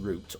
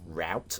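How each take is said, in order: First: The word is said with a non-American pronunciation. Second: The word is said with an American pronunciation.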